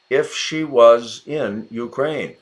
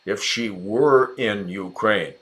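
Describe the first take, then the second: First: Said in the usual way. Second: Were lifted and stressed in the sentence. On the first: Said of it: "there's if". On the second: Shown as a demonstration. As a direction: hit the word were as the correction.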